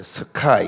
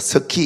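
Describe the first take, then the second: First: The vowel glides as in 'eye'. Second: The vowel is a plain 'ee' sound. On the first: The speaker calls it right. "발음을 잘해야 돼요" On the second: The speaker calls it wrong. "스키 이렇게 이러면 안 됩니다"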